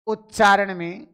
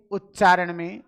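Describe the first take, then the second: No difference in how they are said.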